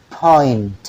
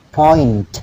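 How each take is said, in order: No difference in how they are said.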